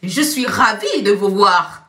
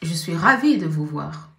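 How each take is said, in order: First: It sounds warm and truly pleased. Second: It sounds flat and unenthusiastic.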